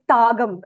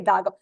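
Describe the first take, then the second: First: The word begins with a voiceless T sound. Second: The word begins with a voiced D sound. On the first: The speaker calls it wrong. "We don't say Tagam" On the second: The speaker calls it right. "We say Dagam"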